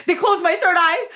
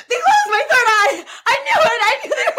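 First: Half laughing, half wailing, higher and louder; laugh-cry it in mock despair. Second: High, loud laughing mock panic; laughing shout. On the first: Real, not acted. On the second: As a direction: shout it in hammed-up alarm, laughing. Mock panic about chakras.

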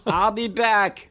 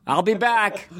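First: Slow, high, laughing robot voice; Terminator voice. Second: Terminator voice. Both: Retold or imitated. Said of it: "three dollars ... roast beef dinner".

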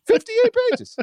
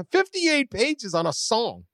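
First: High, loud disbelief; incredulous. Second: Said in the usual way. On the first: Real, not acted. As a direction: squeak it in disbelief. Incredulous at report length.

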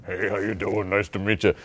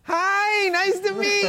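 First: Vin Diesel's expected voice. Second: Very high, squeaky mock greeting; Vin Diesel's tipsy voice. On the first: Acted. Expecting an action star's greeting, low put-on voice. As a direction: imitate a deep-voiced action star saying hello. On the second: Tipsy action star meeting a fan, absurdly high voice. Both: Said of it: "it just came out more like this".

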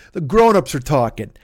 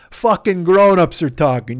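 First: Said in the usual way. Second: "Fucking grown-ups are talking" slower and louder, leaning on "grown-ups"; louder repeat. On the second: Shown as a demonstration. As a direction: hammer the line home the second time.

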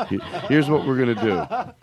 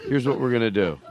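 First: Laughing. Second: Said in the usual way. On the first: Real, not acted.

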